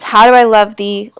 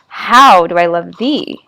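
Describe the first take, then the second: First: The stress falls on the usual syllables. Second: The stress falls on unusual syllables.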